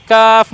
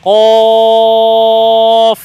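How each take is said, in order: First: কাফ with a light k and open "aa"; light front k in কাফ; wrong thin kaf. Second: কফ as a loud, long "qawf"; thick q and held round vowel in কফ; correct thick qaf. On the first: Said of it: "কাফ না". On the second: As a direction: draw কফ out heavy from the back of the throat. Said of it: "মোটা উচ্চারণ হবে". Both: Shown as a demonstration.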